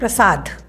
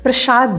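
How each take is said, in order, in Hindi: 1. इस शब्द को सादे 's' ध्वनि के साथ बोला जाता है। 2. इस शब्द को 'sh' ध्वनि के साथ बोला जाता है। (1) "दूसरा शब्द है प्रसाद" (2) "लोग उर्दू लहजे में प्रसाद बोलते हैं"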